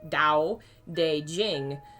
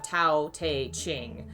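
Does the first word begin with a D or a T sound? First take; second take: D; T. First: The first word begins with a D sound. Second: The first word begins with a T sound. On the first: The speaker calls it right. "It's supposed to be pronounced like a D" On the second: The speaker calls it wrong. "instead of"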